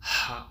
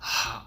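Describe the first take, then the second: First: A hollow h with strong audible airflow. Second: The same.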